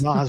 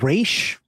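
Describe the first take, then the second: First: The name ends with a 'z' sound. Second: The name ends with an 'sh' sound. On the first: This is how the adaptation pronounces it. "They pronounce it Raz" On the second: This is how it is said in Arabic. "his his name in the comics is Raish"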